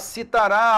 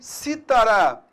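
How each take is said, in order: First: The stress is on the last syllable. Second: The stress is on the first syllable. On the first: It is the future tense of the verb 'to cite'. "futuro do presente, do indicativo do verbo citar" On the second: It names a musical instrument. "é um instrumento musical"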